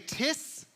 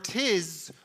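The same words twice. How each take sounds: First: The word ends with a hissing S sound. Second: The word ends with a buzzing Z sound. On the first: "with an S" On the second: "with a Z"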